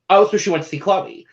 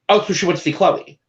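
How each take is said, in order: Both takes have the same delivery.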